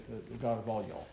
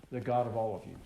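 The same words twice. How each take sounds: First: The God of all y'all in a light Southern accent; a hint of Southern American, stretching y'all; a mild Southern twang on all y'all; Southern drawl. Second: Said in the usual way. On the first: Shown as a demonstration. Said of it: "in the South, we say". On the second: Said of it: "we say".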